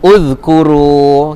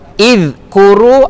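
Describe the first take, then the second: First: The word begins with a u vowel. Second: The word begins with an i vowel. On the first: The speaker calls it right. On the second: The speaker calls it wrong.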